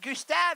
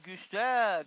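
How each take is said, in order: First: The pitch goes up on the name. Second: The pitch goes down on the name.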